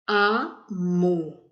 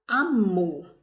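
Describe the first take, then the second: First: "Amor" split slowly into A and MOR; syllable by syllable. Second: Said in the usual way. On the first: Shown as a demonstration. Teacher sounding out the example for children, "Amor" in split syllables. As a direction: pull "Amor" apart, strong final MOR. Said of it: "Qual a sílaba mais forte?". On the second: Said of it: "nós temos a palavrinha".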